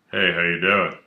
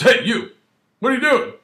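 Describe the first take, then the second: First: Said in the usual way. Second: Much higher, louder demanding call; sharp, loud suspicious officer calling out; barking cop challenge. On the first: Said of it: "Officer comes over and goes". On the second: Retold or imitated. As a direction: bark it out like a cop stopping someone. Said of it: "Well, he doesn't really say that. He goes".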